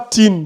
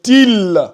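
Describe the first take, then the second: First: The syllable ends with an n sound. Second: The syllable ends with an l sound. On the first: The speaker calls it wrong. "Ce n'est pas tin" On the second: The speaker calls it right. "c'est til. Tu passes de ti ici au lam"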